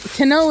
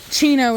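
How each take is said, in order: First: The name begins with a hard K sound. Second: The name begins with a CH sound. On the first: This is the name's original pronunciation. The speaker calls it right. "Kino is the correct pronunciation" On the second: This is how most people in America say it. The speaker calls it wrong. "Chino is what most people call him here in America"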